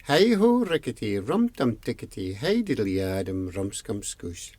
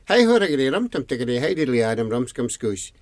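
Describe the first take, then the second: First: The long name spaced out, sinking in pitch and volume; slow it down, falling away to the end; said slowly. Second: Very fast tongue-twister of a name; rattled off. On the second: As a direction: reel the long name off at speed. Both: Acted. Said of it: "Could you say it slowly?".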